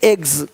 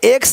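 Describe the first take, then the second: First: The word ends with a voiced gz sound. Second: The word ends with a voiceless ks sound. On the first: The speaker calls it right. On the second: The speaker calls it wrong.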